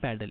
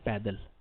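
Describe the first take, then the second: First: It is said like the English word pedal. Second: It is said like the Hindi word paidal. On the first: The speaker calls it wrong. "It's not पैडल" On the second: The speaker calls it right. "It's पैदल"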